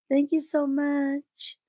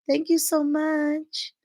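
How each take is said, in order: No difference in how they are said.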